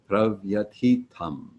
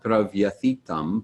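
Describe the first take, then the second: First: The t is followed by a puff of air. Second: The th is said like English th. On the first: The speaker calls it right. "but ... just some air after the T" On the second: The speaker calls it wrong. "it's not"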